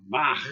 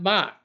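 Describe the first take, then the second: First: It ends with a rough, throaty ch sound. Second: It ends with a plain hard k sound. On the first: The speaker calls it right. "That's the correct way to say Bach" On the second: The speaker calls it wrong. "It's not Bach"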